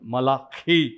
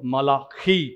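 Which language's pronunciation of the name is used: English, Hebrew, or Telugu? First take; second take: Hebrew; Hebrew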